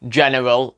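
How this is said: It is said with an English accent. "in a more English accent"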